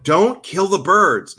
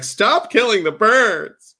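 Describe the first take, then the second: First: Drawn-out, higher plea; slow begging scold; stretched-out higher plea to the cat; pleading with the cat. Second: Slow, higher, drawn-out scold; exasperated slow begging; very stretched higher plea to the cat; pleading with the cat. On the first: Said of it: "then I'm like". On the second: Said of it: "and I'm just like". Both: Retold or imitated.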